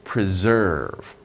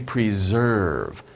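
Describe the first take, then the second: The two takes are said the same way.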